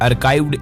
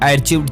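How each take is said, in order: First: The middle consonant is a 'k' sound. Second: The middle consonant is a 'ch' sound. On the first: The speaker calls it right. "इसका सही उच्चारण ये है" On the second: The speaker calls it wrong. "आर्चिव्ड chats या आर्काइव्ड chats"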